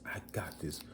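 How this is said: It sounds unsure and lacking confidence.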